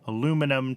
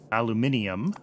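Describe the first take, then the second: First: The word is said with four syllables. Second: The word is said with five syllables. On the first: The speaker calls it wrong. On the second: The speaker calls it right.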